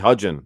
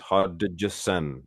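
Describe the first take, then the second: First: The name is said as Hodgin, dropping sounds. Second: The name is said in full as Hodgson. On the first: This is how other people say the name. The speaker calls it wrong. "They call me Hodgin" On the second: This is how the owner says the name. The speaker calls it right. "It's Hodgson"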